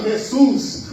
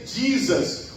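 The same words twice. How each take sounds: First: It is said with a Spanish accent. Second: It is said with an American English accent. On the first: "os espanhóis" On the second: "Os americanos dizem"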